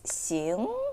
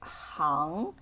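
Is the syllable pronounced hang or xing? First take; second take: xing; hang. First: The syllable is pronounced xing. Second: The syllable is pronounced hang. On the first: It means walk. "One is 行 meaning walk" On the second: It means industry. "the other is 行. When it pronounced as 行, it means industry"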